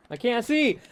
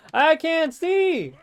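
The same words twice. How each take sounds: First: Higher-pitched frustrated outburst; frustrated cry. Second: High, loud, drawn-out yell; frustrated yell. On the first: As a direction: call out in frustration, short. Calling out during gameplay. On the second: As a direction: yell it higher and stretch it out in frustration. Repeating it, escalating, during gameplay. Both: Real, not acted.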